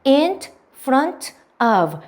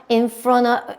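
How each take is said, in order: First: "In", "front", "of" said one by one with pauses; each word of "In front of" fully sounded; separate words. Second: "in front of" run together, ending in a loose uh; "in front of" blended like "in-frona"; linked pronunciation. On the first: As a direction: break "In front of" into careful single words. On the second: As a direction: glide through "in front of" without breaks. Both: Shown as a demonstration. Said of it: "요렇게 쭉 이어서 발음하시면".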